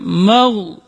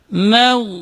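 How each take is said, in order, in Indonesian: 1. Bunyi m itu tebal dan berat. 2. Bunyi m itu tipis dan ringan. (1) "ketika mim ditebalkan. Misalnya mau gitu. Itu salah" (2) "Tapi harus dibaca"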